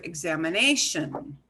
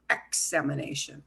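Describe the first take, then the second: First: Examination with the NAY syllable punched; stress on NA. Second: Examination punched on the first syllable, EX-amination; misplaced stress. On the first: Teacher showing usual English stress, examination punched on NAY. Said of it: "punch that syllable a little bit harder". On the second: Teacher showing wrong stress, examination punched on EX. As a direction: hit EX in examination, rush the rest. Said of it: "not examination". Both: Shown as a demonstration.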